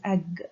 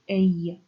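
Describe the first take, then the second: First: The word ends with a hard g sound. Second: The word ends with a y-like sound. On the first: This is the unpalatalized, Scandinavian-style form. The speaker calls it wrong. "this is not pronounced as ag" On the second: This is the palatalized Old English form. The speaker calls it right. "but as a, because the ga, has been palatalized"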